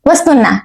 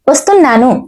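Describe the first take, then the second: First: The word is shortened, dropping the final 'nu'. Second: The word is said in full with final 'nu'. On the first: This is how it is said in everyday fast speech. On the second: This is the full standard form.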